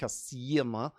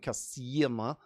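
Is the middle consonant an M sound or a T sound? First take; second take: M sound; M sound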